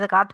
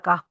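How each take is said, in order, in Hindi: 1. इस शब्द के आख़िर में साफ़ t की आवाज़ है। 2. शब्द स्वर पर ख़त्म होता है, कोई t नहीं। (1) "उर्दू में भी यही बोलते हैं, ज़कात बोलते हैं" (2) "सिंपल अगर आप बोल रहे हैं तो ज़का"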